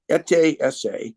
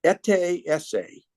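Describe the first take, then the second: First: "Ete Esse" slowed right down, eh-TAY eh-SAY, each syllable clear; slow careful pronunciation. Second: "Ete Esse" said eh-TAY eh-SAY, both ends stressed; symbol name pronounced. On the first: Repeating the symbol name for the listener, slow "Ete Esse" as eh-TAY eh-SAY. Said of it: "with an accent on the E". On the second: Naming a symbol for her interviewer, saying "Ete Esse" as eh-TAY eh-SAY. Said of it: "So that one is pronounced". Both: Shown as a demonstration.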